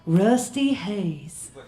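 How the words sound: It is said in a Southern American accent. The speaker calls it right. "that's a little bit better. It's the southern thing"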